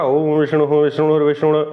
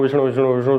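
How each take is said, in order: First: The phrase is said slowly, with words separated. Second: The phrase is rattled off quickly and unclearly. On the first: It is broken up so a learner can follow. The speaker calls it right. "जितना धीमे हो सकता है" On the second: The reciter knows it by heart, so listeners catch only half. The speaker calls it wrong. "वो अपनी speed से बोल रहे हैं"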